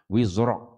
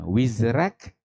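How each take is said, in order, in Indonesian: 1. Bunyi r itu berat dan tebal. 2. Bunyi r itu ringan dan tipis. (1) "kita hafs kita baca tu tebal" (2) "bagi warsh dia baca dengan nipis"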